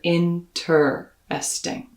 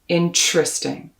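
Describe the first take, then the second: First: The middle is said with a plain t sound. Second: The middle is said with a ch sound. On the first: "In many accents of English, you'll hear" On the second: "in most parts of the States and Canada, you will hear ch"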